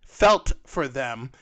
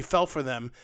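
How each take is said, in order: First: FELT drawn out slowly and set apart; stress on FELT. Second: Said in the usual way. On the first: Real, not acted. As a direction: repeat it slowly, leaning on the word felt. Repeats the word for emphasis.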